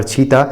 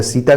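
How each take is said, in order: First: "छीता" opening on aspirated chh; Chhattisgarhi pronunciation. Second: Said in the usual way. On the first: Shown as a demonstration. Teacher revises the dialect example, "छीता" with chh for s. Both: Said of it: "स के स्थान पर छ".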